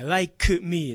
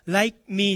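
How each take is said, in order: First: Like me as "lai-ku mii", k fully released; clearly sounded k. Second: Like me run together as "lai-mi"; swallowed k. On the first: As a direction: separate "like me" with a distinct k. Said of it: "ここははっきりしないと". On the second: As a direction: say "like me" with the k barely there. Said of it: "じゃなくて". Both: Shown as a demonstration.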